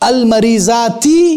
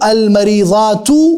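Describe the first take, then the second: First: The word ends with an i vowel. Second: The word ends with a u vowel. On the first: The speaker calls it right. "ज़ेर से ... ये सही है" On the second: The speaker calls it wrong. "ये गलत है"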